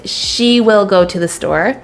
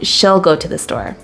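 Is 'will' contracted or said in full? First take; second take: full; contracted. First: The word will is said in full. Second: The word will is contracted onto she. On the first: "if I say" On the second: "then I would say she'll"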